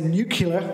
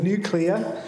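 First: The word is said in the 'nucular' way. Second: The word is said in the standard 'nuclear' way. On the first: The speaker calls it wrong. "I like to say nuclear" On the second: The speaker calls it right. "instead of nuclear"

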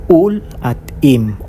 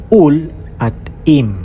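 Both takes have the same delivery.

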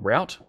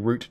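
First: The word is said with a non-Australian pronunciation. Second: The word is said with an Australian pronunciation. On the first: "which you might call route" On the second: "my Australian pronunciation"

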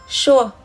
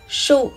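First: The syllable glides from u to a. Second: The syllable ends in a plain u vowel. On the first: It means very many times. "nhưng ở đây thì đọc là sua" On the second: It means number or count. "chữ số vốn được đọc là su"

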